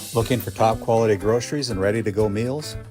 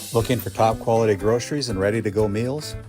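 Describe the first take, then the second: Both takes have the same delivery.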